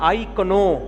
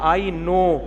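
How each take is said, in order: First: The word 'know' starts with a k sound. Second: The word 'know' starts with an n sound. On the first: The speaker calls it wrong. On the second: The speaker calls it right.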